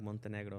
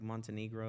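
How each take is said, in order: First: The name is said with a Spanish accent. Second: The name is said with an English accent. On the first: "like Mexican people that are like Montenegro" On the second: "they're just like Montenegro"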